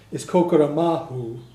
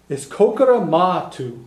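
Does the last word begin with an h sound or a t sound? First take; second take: h sound; t sound. First: The last word begins with an h sound. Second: The last word begins with a plain t sound.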